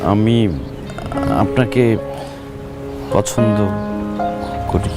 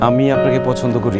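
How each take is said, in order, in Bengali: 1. এটি আটকে আটকে, অস্পষ্টভাবে বলা হয়েছে। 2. এটি স্পষ্ট, পরিষ্কারভাবে বলা হয়েছে। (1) "এরকম ভাঙা রেডিওর মতো বললে তো হবে না" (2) "স্পষ্ট করে বলতে হবে"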